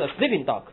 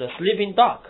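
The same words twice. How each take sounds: First: Only sleeping stressed, dog falling away; wrong stress. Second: Sleeping and dog both stressed, dog rising; both words stressed. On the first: Teacher demonstrating the wrong stress to students. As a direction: push the weight onto sleeping, not dog. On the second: Teacher showing students the right stress on both words. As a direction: give sleeping and dog equal weight. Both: Shown as a demonstration. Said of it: "两个词都要动读".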